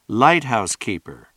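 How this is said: The stress is on light.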